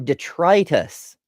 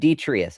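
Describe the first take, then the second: First: The second T sound is clearly pronounced. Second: The second T sound is dropped entirely. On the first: The speaker calls it right. "you're missing a T in your pronunciation" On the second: The speaker calls it wrong. "you're missing a T in your pronunciation"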